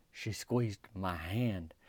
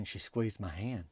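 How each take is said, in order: First: Very slow, soft and low, word by word; savoring repeat. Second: Soft, lower, at an even pace; hushed telling. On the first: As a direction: linger on every word of it. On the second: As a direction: tell it quietly, moving along. First telling of the tender moment. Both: Real, not acted.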